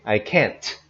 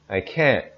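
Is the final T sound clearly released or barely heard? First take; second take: clearly released; barely heard. First: The final T is loud and clearly released. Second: The final T is quiet and barely heard. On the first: The speaker calls it wrong. "Notice we don't say" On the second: The speaker calls it right. "The T is not very loud and it's not very easy to hear"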